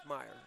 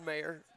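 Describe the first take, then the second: First: "Meyer" with an EYE vowel in the first syllable; correct name pronunciation. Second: "Mayer" with an AY vowel; spelling pronunciation. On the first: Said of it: "it's pronounced Meyer". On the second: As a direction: say "Mayer" as written, MAY-er. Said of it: "but it's pronounced Meyer". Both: Shown as a demonstration.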